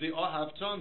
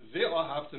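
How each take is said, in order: First: The stress falls on the last syllable. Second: The stress falls before the last syllable. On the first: It refers to a future command. "means you shall love" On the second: It refers to a past action. "means and you loved"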